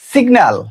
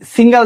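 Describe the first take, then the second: First: A hard 'g' is heard before the 'n'. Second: A nasal 'ng' replaces the hard 'g'. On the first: The speaker calls it right. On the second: The speaker calls it wrong.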